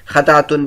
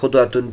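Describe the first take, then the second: First: The first syllable has an 'a' vowel. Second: The first syllable has a 'u' vowel. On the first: This is the most eloquent form. "पहला तलफ़ुज़ यानी खा पर ज़बर और दाल पर जज़म के साथ सबसे ज़्यादा फसीह है" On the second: This is the form best preserved by narrators. "दूसरा तलफ़ुज़ खा पर पेश और दाल पर जज़म के साथ ज़्यादा महफूज है"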